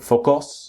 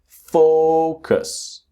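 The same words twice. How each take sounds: First: The stress is on the second syllable. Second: The stress is on the first syllable. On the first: The speaker calls it wrong. "It's not focus" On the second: The speaker calls it right. "strong syllable is the first syllable"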